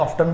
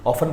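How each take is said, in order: First: ऑफ्टन said with a clear t, as "off-ton"; t sounded in often. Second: ऑफन said as "off-en" with no t sound; silent t in often. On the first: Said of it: "ऑफ्टन भी नहीं बोलते". (ऑफ्टन टी बोलकर उच्चारित करें) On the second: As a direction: say ऑफन, drop the t completely. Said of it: "ऑफन बोलते हैं". (ऑफन बिना टी की आवाज़ के बोलें) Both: Shown as a demonstration.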